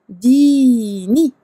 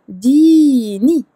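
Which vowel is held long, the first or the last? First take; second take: first; first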